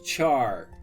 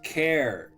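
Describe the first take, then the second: First: It starts with ch and rhymes with far. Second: It starts with k and rhymes with air. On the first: "some say it as char" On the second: "others say it as care"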